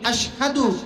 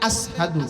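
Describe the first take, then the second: First: The middle consonant is a 'sh' sound. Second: The middle consonant is an 's' sound. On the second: "সিন উচ্চারণ করতে পারতেন না"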